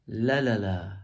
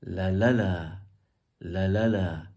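First: "La la la" with the first la stressed and louder; "La la la", strong start, trailing off; stress on first syllable. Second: "la la la" with the second la stressed and louder; "la la la", swelling on the second la; stress on middle syllable. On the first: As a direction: punch the opening la of "La la la". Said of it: "That's emphasizing the first one". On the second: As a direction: punch the middle la of "la la la". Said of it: "if I emphasize the middle one". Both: Shown as a demonstration.

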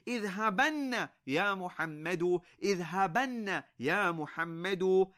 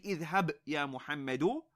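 First: اذهبن said with a doubled, held noon: idhhabanna; emphatic noon added. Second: Said in the usual way. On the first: Shown as a demonstration. Teacher showing students the emphatic form اذهبن. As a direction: stretch the nn in اذهبن, idhhabanna, with weight. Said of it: "but you want to emphasize the matter". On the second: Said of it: "You wouldn't just say".

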